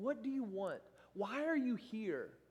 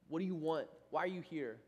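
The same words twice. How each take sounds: First: It sounds kind and welcoming, offering help. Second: It sounds accusatory, like an annoyed big brother.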